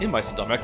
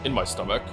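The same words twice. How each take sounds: First: It sounds giddy, proud and a little surprised. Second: It sounds flat and matter-of-fact. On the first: He is proud of outsmarting the other person. "he has a little bit of like giddiness to his voice" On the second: He is simply stating what he did. "he's just very flat"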